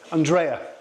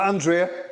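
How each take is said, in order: First: The name is said the Scottish way. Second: The name is said the usual, non-Scottish way. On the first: The speaker calls it right. "You have to pronounce it the Scottish way" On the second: The speaker calls it wrong. "It's not Andrea"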